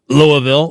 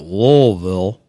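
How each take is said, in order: First: It is said in a standard, outsider pronunciation. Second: It is said the way locals in Louisville say it.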